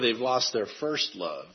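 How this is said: The stress falls on the word first. It is no longer first in their lives. "If you emphasize that word, that really means that they've lost, it's no longer first in their lives"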